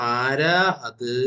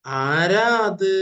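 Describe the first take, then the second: First: Slow reading. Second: High, loud and very slow; loud and drawn out. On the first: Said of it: "അത് ആരാന്നുള്ളത് ഇവിടെ എത്തിയപ്പോ". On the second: Teacher asks class to say it loudly, slow loud call. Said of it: "എല്ലാരും ഒന്ന് ഉറക്കെ പറഞ്ഞേ". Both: Shown as a demonstration.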